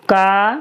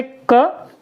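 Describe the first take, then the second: First: का as a held "kaa"; long आ sound. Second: क as a brief "ka"; short अ sound. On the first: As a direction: stretch the vowel in का. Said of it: "बड़े आ की मात्रा लगा दी तो". (का में लंबा आ) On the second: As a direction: say क with just the short inherent vowel. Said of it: "छोटे अ की कोई मात्रा नहीं". (क में छोटा अ) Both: Shown as a demonstration.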